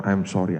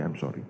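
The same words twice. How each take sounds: First: Said in the usual way. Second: "I'm sorry" dropped low and very soft; fading apology. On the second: Retold or imitated. Policewoman consoling the mother, "I'm sorry" trailing off very soft. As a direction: sink "I'm sorry" to almost nothing.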